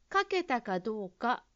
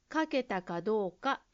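The two takes are said the same way.

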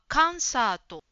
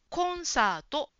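First: The first vowel is an open 'a' sound. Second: The first vowel is a small rounded 'o' sound. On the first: The speaker calls it wrong. "カンサートと言っているように聞こえました。かではなくて" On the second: The speaker calls it right. "こうですね。口を小さく丸く開けましょう。"

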